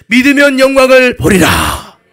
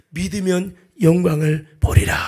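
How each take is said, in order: First: Slow, booming repeat at full force; shouted proclamation. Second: Solemn declaration. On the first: Preacher proclaims Jesus' promise to congregation, shouted proclamation. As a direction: cry it out loud and drawn out. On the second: Jesus promises glory to believers, solemn declaration. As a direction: state it slowly with weight. Jesus' word, first measured take. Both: Acted.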